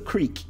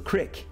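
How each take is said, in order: First: The word has a long ee vowel. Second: The word has a short ih vowel. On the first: "you might hear it pronounced as creek" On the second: "commonly in the North I've found they say it like this"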